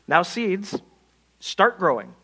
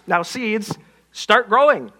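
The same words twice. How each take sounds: First: It is said at a normal, quiet volume. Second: It is shouted loudly.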